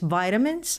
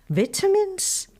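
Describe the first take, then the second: First: It is said in an American accent. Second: It is said in a non-American accent.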